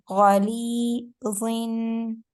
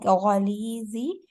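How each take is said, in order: First: The word ends in a clear n sound. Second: The word ends in an open 'ee' vowel. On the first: The speaker calls it right. "double zir is giving an N sound. So we have to make the N sound very clear" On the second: The speaker calls it wrong. "if we say it like Ghalizi, Z is the sound of the single zir. It's zir is giving an E sound"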